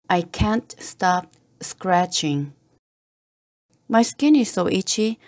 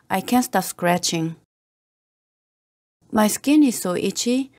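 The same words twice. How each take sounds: The two takes are said the same way.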